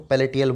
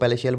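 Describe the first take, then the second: First: The middle consonant is a t sound. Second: The middle consonant is an sh sound. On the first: It is a memory aid for the spelling. "पैलेटियल बोलना इसको" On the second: It is the usual pronunciation. "वैसे इसको पैलेशियल बोला जाता है"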